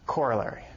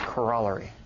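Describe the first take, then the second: First: It is pronounced the common American way. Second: It is pronounced the Canadian or British way. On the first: "how many people here pronounce this word corollary?" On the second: "usually Canadian, or British or something. I think that's the accent"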